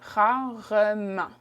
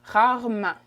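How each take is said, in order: First: The word is said slowly, with every syllable clear. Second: The word is said quickly, with the middle syllable reduced. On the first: This is the proper form for practice. "the way you said properly would be" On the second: This is casual everyday speech. "So I said that very fast"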